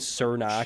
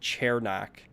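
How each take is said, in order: First: The first syllable does not sound like 'chair'. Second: The first syllable sounds like 'chair'. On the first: This is the habitual pronunciation. "we've been saying" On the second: This is the official pronunciation. "I looked up the pronunciation today, and it said it was"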